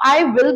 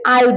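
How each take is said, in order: First: Both words are said fully and separately. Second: It is one short syllable with a light L. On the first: "आप आई विल भी बोल सकते हैं" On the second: "spoken English में हम अधिकतर आई बोल देते हैं"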